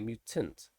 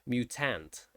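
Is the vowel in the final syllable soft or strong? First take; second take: soft; strong. First: The final syllable has a soft, weak vowel. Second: The final syllable has a strong, open ah vowel. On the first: This is how we say it. "but we just say mutant, It's very soft" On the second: This is how Americans say it. "Americans would be mutant"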